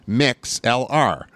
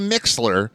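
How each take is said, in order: First: The last letters are spelled out separately. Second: The name is said as one blended word. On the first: This lets listeners find it by spelling. "I have to spell it out" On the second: This is how the company prefers it. "they do prefer that you say Mixler"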